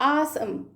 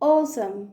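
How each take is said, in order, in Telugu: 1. మొదటి అచ్చు తెరిచిన 'ah' శబ్దం. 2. మొదటి అచ్చు గుండ్రంగా ఉన్న 'oh' శబ్దం. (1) "అదే అమెరికన్ అయితే ఆసమ్" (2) "అదే బ్రిటిష్ ఇంగ్లీష్ యాక్సెంట్ అయితే ఓసమ్, ఓ ఓ వస్తుంది"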